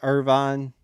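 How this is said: It is said the California way.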